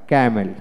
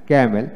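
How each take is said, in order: Both takes have the same delivery.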